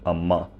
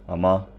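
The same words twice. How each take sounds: The two takes are said the same way.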